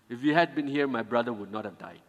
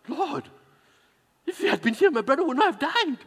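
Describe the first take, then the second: First: It is read flatly, without reproach. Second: It is said with a reproachful, frustrated tone.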